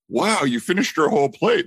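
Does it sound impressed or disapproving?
impressed. It sounds impressed and praising.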